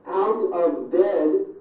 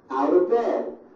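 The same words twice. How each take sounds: First: Each word is said separately and in full. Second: The words are squeezed together into reduced sounds.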